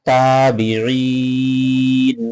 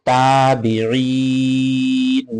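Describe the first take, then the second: No difference in how they are said.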